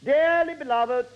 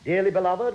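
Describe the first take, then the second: First: It is said in a put-on vicar voice. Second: It is said in an ordinary voice. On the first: The speaker calls it right. "It's more like this" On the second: The speaker calls it wrong. "that doesn't sound right. Doesn't sound like a vicar"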